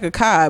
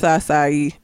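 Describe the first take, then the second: First: The middle consonant is a hard k sound. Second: The middle consonant is a soft s sound. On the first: The speaker calls it wrong. "It does look like a kai" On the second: The speaker calls it right. "but it's acai"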